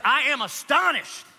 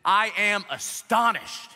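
First: Higher, louder, slow astonished rebuke; "I am astonished" pitched high, pressing on astonished; slow scolding "I am astonished"; mean, stern reading. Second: Slow, weighty I am astonished with I stressed; slow stern "I am astonished"; stern reading. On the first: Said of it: "It's like that, it's mean". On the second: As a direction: read "I am astonished" slowly, leaning on I. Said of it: "he says in verse six". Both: Shown as a demonstration.

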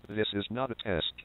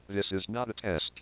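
The two takes are said the same way.

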